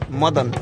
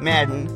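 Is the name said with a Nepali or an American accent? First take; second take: Nepali; American. First: The name is said with a Nepali accent. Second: The name is said with an American accent.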